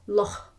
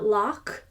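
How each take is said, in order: First: Loch with a heavy rasp; over-throaty loch. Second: Loch ending in a plain k; hard-K loch. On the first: Teacher showing the too-strong loch. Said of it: "but it's not loch". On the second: Teacher showing the too-hard loch. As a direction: say loch as lock, the wrong way. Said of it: "It's not loch". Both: Shown as a demonstration.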